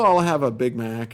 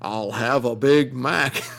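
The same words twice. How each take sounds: First: It is said plainly in the speaker's own accent. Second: It is said as a mocking, exaggerated accent imitation. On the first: The customer orders normally. "I'd go in and go" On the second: A worker mimics the customer for laughs. "the guy would turn around to his buddy and go, ... I'm trying to do the American accent"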